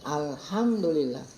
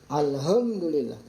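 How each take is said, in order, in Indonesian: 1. Huruf h adalah bunyi napas yang tegang dan dari tenggorokan. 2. Huruf h adalah bunyi napas yang ringan dan biasa. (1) "kan harusnya alhamdulillah" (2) "mengganti huruf ha dengan apa?"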